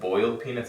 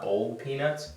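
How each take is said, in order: First: It is said without a Southern accent. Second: It is said with a Southern accent.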